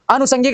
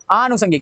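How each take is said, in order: First: अनुषंगिक opened on short a; short first vowel. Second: आनुषंगिक opened on long aa; long first vowel. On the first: (अनुषंगिक, छोटा अ) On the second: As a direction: stretch the start of आनुषंगिक. (आनुषंगिक, लंबा आ) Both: Shown as a demonstration. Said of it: "का क्या होता है".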